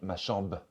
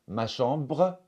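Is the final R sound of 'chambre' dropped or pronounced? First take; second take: dropped; pronounced. First: The final R sound is dropped. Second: The final R sound is pronounced.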